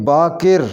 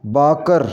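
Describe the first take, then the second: First: बाकिर ending in 'kir'; correct pronunciation. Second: बाकर ending in 'kar'; mispronounced last vowel. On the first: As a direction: say बाकिर as 'baa-kir'. (बाकिर के 'क' के नीचे ज़ेर बोलें) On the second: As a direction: say बाकर as 'baa-kar'. (बाकर के 'क' पर ज़बर बोलें) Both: Shown as a demonstration. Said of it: "इसको सही पढ़ेंगे".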